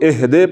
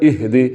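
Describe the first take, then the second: First: The word ends with an 'ay'-like vowel. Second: The word ends with a clear 'ee' vowel. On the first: The speaker calls it wrong. "इहदे पढ़ना ये मजहूल है" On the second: The speaker calls it right. "इसको पढ़ना इहदी"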